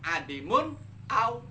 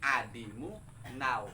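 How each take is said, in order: First: A glottal catch separates the n from the vowel. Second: The final n runs straight into the next vowel. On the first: This follows the ordinary grammar rule but breaks the metre. The speaker calls it wrong. "nggak boleh kalau hamzanya hamzah kotok" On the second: The metre requires the connecting hamza here. The speaker calls it right. "hamzahnya dibikin hamzah wasol"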